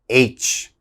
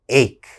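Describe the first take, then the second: First: The word ends with a ch sound. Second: The word ends with a k sound. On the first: The speaker calls it wrong. "a lot of my students say H, okay? That's wrong" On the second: The speaker calls it right. "That C H has to have a strong K sound"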